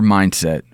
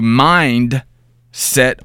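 First: It is said as a single compound word. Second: It is said as two separate words. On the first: It names a person's way of thinking. "I think I said it with one word inflection" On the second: It means a mind focused on something. "Two words"

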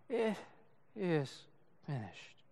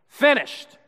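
First: It is said in a weak whimper. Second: It is yelled in a loud voice.

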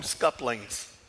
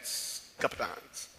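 First: The word is said with an l and ends in -lings. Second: The word is said with a p and ends in -nongs. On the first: This is how people in another region say it. "some of the folks in Middle Georgia call them scuplings" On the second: This form follows the spelling. "it should be pronounced Scuppernong"

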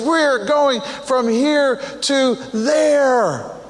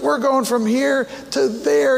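First: It is said louder with great passion. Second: It is said plainly and calmly.

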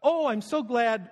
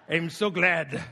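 First: It is said in an Irish-sounding accent. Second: It is said in a pirate-sounding accent.

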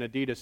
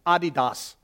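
First: It is said with an American pronunciation. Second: It is said with a German pronunciation. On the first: The speaker is marked as an American. The speaker calls it wrong. "You must be American saying Adidas" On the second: This is how it is said in Germany. The speaker calls it right. "that's actually the right way to say it"

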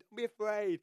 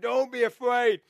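First: It is said softly and gently. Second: It is said loudly, with a roar.

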